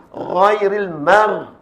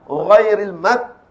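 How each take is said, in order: First: Ghairil mar drawn out slowly with thick ghain; raised sound. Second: Ghairil mat slow, the final letter stopped like k; turned into kaf. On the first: Teacher models proper isti'la, raised demo. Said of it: "Bunyi meninggi". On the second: Teacher shows the mistake to avoid, kaf demo. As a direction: cut the end of Ghairil mat with a hard k. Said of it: "Itu kena huruf kaf". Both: Shown as a demonstration.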